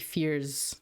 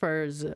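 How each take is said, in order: First: The vowel sounds like the one in 'fear'. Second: The vowel sounds like the one in 'fur'. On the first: "but it could be Fears" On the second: "I'm pronouncing it Furs"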